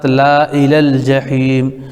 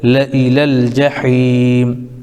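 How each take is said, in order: First: The vowel after the first consonant is long. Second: The vowel after the first consonant is short. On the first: This is how the word is spelled. "लिखा हुआ है अलिफ़ के साथ" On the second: This is how the word is recited. "सही जो पढ़ने का तरीक़ा है वो बग़ैर अलिफ़ के"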